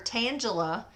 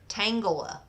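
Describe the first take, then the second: First: The name does not begin like 'tangled'. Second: The name begins like the word 'tangled'. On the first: The speaker calls it wrong. "I've been calling her Tangela" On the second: The speaker calls it right. "she says it's like tangled hair"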